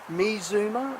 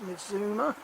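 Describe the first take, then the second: First: The middle consonant is a 'z' sound. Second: The middle consonant is a 'ts' sound. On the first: The speaker calls it right. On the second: The speaker calls it wrong.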